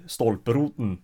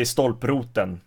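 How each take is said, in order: First: "stolproten" with the last E swallowed; northern dropped vowel. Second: "stolproten" with its last E pronounced; full last vowel. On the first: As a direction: say "stolproten" ending straight on N, no final E. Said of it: "don't even pronounce the last E". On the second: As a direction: say "stolproten" with the final vowel kept. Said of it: "So I would say". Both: Shown as a demonstration.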